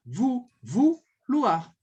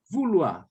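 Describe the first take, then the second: First: "Vou, vouloir" stretched very slowly, the ou held; syllable by syllable vouloir. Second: Said in the usual way. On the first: Shown as a demonstration. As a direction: break vouloir into vou, then the whole word, slowly. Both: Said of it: "olha só como é que vai ser a pronúncia".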